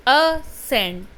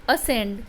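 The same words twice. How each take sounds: First: Ascend broken in two, "a", then "scend"; teacher's two-syllable demo of ascend, with a gap after the "a"; split into syllables. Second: Said in the usual way. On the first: Shown as a demonstration. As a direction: sound out ascend as two separate beats, a - scend. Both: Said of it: "दो बार हमारे मुंह की posture बदलती है".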